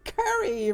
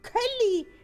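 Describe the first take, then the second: First: The middle consonant is pronounced as an R. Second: The middle consonant is pronounced as an L.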